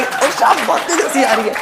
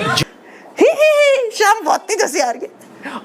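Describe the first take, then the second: First: Higher, giggly line "ओ, शाम बहुत तेज हंसी आ रही है" said openly; imitating a friend's laugh voice note; mock laughing message. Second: Squeaky held-in "ही, ही" then strained "शाम बहुत तेज हंसी आ रही है"; hammed-up stifled laughter; suppressed giggle. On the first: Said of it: "हंसी, अपनी हंसी रिकॉर्ड करके भेजने वाली". (हंसी की वॉइस नोट की नकल) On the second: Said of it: "मतलब इतना नाटक करते हैं ना". (दबी हुई नकली हंसी)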